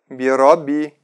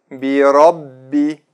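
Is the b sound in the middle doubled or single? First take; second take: single; doubled. First: The middle b sound is short and single. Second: The middle b sound is held and doubled. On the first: The speaker calls it wrong. "Не говорите так" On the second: The speaker calls it right. "Правильно так"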